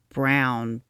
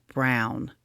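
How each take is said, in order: Both takes have the same delivery.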